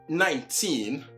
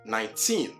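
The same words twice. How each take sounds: First: The stress is on the first syllable. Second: The stress is on the last syllable. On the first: The speaker calls it wrong. "it is not nineteen" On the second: The speaker calls it right. "with emphasis in pronunciation placed on the last syllable"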